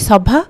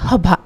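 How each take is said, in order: First: The word begins with an s sound. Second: The word begins with an h sound. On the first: This is the Odia form of the word. "ଓଡ଼ିଆରେ କହନ୍ତି ସଭା" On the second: This is the Assamese form of the word. "ଅସମିଆରେ କହନ୍ତି ହଭା"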